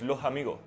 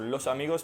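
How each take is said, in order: First: The words end with an H sound. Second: The words end with a clear S sound.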